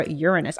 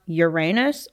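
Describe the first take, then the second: First: "Uranus" as YOOR-uh-nus, stress on YOOR; co-host offers the other pronunciation, "Uranus" with an unstressed middle syllable; stressed first syllable. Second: "Uranus" as yoo-RAY-nus, stress on RAY; co-host unsure which pronunciation is right, offers "Uranus" with a long AY in the middle; stressed second syllable. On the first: Say "Uranus" like YOOR-uh-nus. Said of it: "I think it's actually Uranus". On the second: Say "Uranus" like your-AY-nus. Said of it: "I don't know if it's pronounced". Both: Shown as a demonstration.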